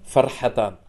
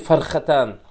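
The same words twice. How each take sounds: First: The middle consonant is a smooth breathy h. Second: The middle consonant is a rasping throaty kh. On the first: The fasting person has two joys. The speaker calls it right. "Фарха, через букву Ха это как? Две радости" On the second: The fasting person has two chickens. The speaker calls it wrong. "А он прочитал, что лисами фархатан, постящимся две курицы"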